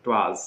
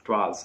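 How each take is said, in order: No difference in how they are said.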